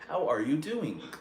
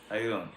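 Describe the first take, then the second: First: The word 'are' is pronounced in full. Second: The word 'are' is dropped and the words link. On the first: Only some people talk like this. The speaker calls it wrong. "We're not gonna say" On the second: This is how most people talk. The speaker calls it right. "We're gonna say"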